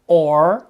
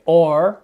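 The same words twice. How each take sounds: The two takes are said the same way.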